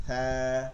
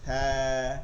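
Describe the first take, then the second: No difference in how they are said.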